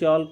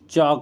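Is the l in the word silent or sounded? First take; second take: sounded; silent. First: The l is pronounced in the word. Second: The l is not pronounced in the word. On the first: The speaker calls it wrong. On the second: The speaker calls it right.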